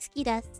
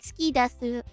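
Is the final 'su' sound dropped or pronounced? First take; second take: dropped; pronounced. First: The final su is dropped. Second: The final su is fully pronounced. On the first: The speaker calls it right. "I don't think you pronounce the su at the end" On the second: The speaker calls it wrong. "people don't say like"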